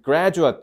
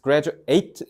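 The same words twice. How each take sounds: First: The stress is on the first syllable. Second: The stress falls toward the last syllable. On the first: It is the noun for a person who finished school. "그럼 졸업생이란 뜻이야" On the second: It is the verb meaning to finish school. "graduate 액센트를 뒤에다 줬지"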